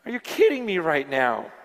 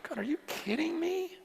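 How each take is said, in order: First: Lower, fully voiced incredulity; voiced disbelief. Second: High, breath-light whisper to God; hushed disbelief. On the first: Repeats his disbelief, now voiced. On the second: Retold or imitated. Awed disbelief at his own life.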